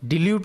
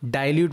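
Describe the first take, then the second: First: The first vowel is a short i sound. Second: The first vowel is an eye sound. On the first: The speaker calls it wrong. "નહીં" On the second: The speaker calls it right. "બોલીશું"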